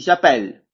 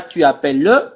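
First: J'appelle stopping on the L, falling tune; silent final E. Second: Tu appelles with an added "le" syllable on the end; sounded final E. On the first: French teacher giving the correct form, j'appelle with silent ending. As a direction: end j'appelle on L with no vowel after it. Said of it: "on dit j'appelle". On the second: French teacher showing what not to say, tu appelles with sounded ending. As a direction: wrongly voice the ending, "tu a-pel-leu". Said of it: "je dis pas tu appelles le". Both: Shown as a demonstration.

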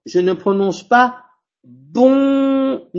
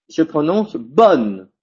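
First: Bonne said nasal like bon, slow and high; wrong demo of bonne with a nasal on; wrong nasal take. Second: Bonne said with a clear separate N, slow; correct bonne. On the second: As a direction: say bonne slowly with the N sounded out. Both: Shown as a demonstration.

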